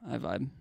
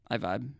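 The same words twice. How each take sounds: The two takes are said the same way.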